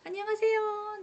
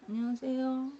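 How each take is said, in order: First: The greeting sounds warm and cheerful. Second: The greeting sounds reluctant and unfriendly.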